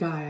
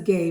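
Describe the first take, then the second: First: The vowel sounds like the one in 'high'. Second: The vowel sounds like the one in 'day'. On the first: This is how the name is actually pronounced. The speaker calls it right. "but you pronounce it Guy, I think" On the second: This is how the spelling reads. The speaker calls it wrong.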